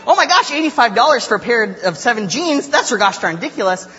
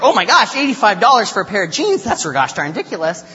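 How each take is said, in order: First: High, loud mock amazement held to the end; amazed friend. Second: High, loud mock outrage easing off at the end; upset woman. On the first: Friend Claire marveling at the bargain, mock-delighted exclamation. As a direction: imitate a bargain hunter thrilled by the deal. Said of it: "And Claire's like". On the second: Woman outraged at the price of jeans, mock-upset exclamation. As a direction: imitate a shopper appalled by the cost. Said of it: "This woman was upset".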